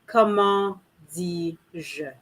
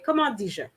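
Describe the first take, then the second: First: It is said slowly, with every sound over-articulated. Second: It is said naturally, with the words run together. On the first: "obviously I'm over articulating" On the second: "I would just say, comment dis-je? ... really sounding like one word"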